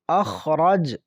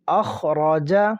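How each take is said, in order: First: The last consonant ends without a vowel. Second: The last consonant carries a short vowel.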